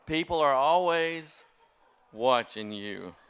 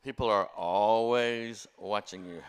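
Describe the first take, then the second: First: Slow, loud, every word weighted; emphatic moral. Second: Neighbor's slow, pointed warning. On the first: Real, not acted. Preacher driving home the moral to the congregation, slow and loud. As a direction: land the lesson hard and slow. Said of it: "repeats the lesson as punchline". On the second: Retold or imitated. Neighbor on the phone warning him, slow and pointed. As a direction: lean on each word, drawn out and firm.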